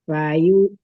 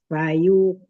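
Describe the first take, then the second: Both takes have the same delivery.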